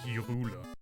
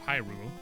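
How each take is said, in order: First: The name is pronounced like a German word. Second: The name is pronounced like an English word. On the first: "like a German word" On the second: "like it's supposed to be in English"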